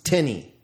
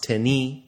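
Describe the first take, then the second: First: The stress is on the first syllable. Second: The stress is on the second syllable. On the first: It asks a question: to whom? "Interrogative, ... always has the accent on the first syllable" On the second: It refers to someone unspecified. "Indefinite, ... has the accent on the second syllable or no accent at all"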